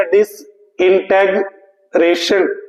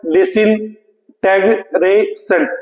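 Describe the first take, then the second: First: डिसइंटीग्रेशन said slowly, every syllable apart. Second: डिसइंटीग्रेशन slowly, syllables apart, falling at the end. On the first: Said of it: "ये क्या बोला जाएगा". (डिसइंटीग्रेशन को धीरे-धीरे एक-एक syllable में बोलना) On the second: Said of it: "और ये क्या बोला जाएगा". (डिसइंटीग्रेशन को अक्षर-अक्षर धीमे बोलना) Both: Shown as a demonstration.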